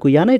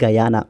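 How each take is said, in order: First: The first syllable sounds like 'goo'. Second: The first syllable sounds like 'gah'. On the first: The speaker calls it wrong. "It's not గుయానా" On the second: The speaker calls it right. "It is గయానా"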